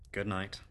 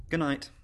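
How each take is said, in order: First: Low, soft governess; soft good night. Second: Lightly voiced child, higher; little girl. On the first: Acted. Governess leaving children at bedtime, soft good night. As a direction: answer quietly and let it drop. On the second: Child to governess at bedtime, childlike good night.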